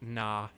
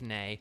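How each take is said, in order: First: The name ends with an open 'ah' vowel. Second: The name ends with an 'ay' vowel. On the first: The speaker calls it wrong. "I kind of thought it was like Nah" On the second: The speaker calls it right. "instead of Nay"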